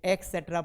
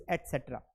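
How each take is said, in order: First: "एटसेटरा" said ek-setra; k sound in place of t in "एटसेटरा"; common misreading. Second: "एटसेटरा" said et-setra; correct pronunciation. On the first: Teacher showing students the common slip, misreading. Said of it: "पढ़ देते हैं". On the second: Teacher giving students the right reading, correct pronunciation. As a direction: clear t before the s in "एटसेटरा". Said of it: "ध्यान रखना है". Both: Shown as a demonstration.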